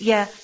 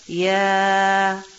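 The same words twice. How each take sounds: First: The letter name is said short. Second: The letter name is drawn out long. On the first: The speaker calls it wrong. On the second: The speaker calls it right.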